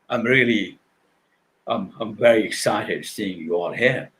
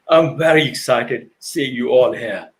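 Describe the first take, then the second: First: The voice sounds flat and disconnected. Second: The voice sounds warm and engaged.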